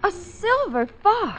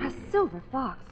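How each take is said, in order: First: Gasped-out discovery, pitched high and drawn out; startled exclamation. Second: Hushed realisation. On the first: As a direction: react in high, slow astonishment. Claire spots the fur scarf. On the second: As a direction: softly echo it to yourself. Claire repeats it, sinking in. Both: Acted.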